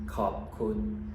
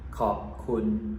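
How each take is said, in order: The two takes are said the same way.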